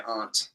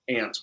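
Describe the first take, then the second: First: Aunt said AHNT; New England pronunciation. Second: Aunt said like ant; short flat A in aunt, as in ant; standard pronunciation. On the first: New Englander shows local speech, aunt as AHNT. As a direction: open AH vowel in aunt. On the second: New Englander contrasts local speech, aunt as ant. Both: Shown as a demonstration. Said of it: "how we say".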